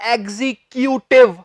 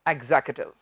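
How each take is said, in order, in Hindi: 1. बीच में पूरी 'kyoo' आवाज़ है। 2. बीच वाला हिस्सा छोटा होकर सिर्फ़ एक सादा 'k' रह जाता है। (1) "ਇਹਨੂੰ ਐਦਾਂ ਨਹੀਂ ਕਹਿਣਾ" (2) "ਕਿਊਟਿਵ ਨਹੀਂ ਐਗਜ਼ੈਕਟਿਵ"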